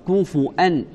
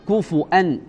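Both takes have the same delivery.

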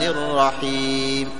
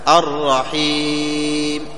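First: The long vowel is held for two counts. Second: The long vowel is held for four counts. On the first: "هاتان حركتان" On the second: "أربع"

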